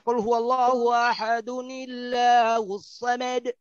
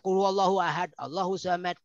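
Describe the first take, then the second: First: Ahad runs straight into the next word. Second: It stops after ahad, then starts again. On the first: The speaker calls it right. "pasti baca" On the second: The speaker calls it wrong. "Enggak ada"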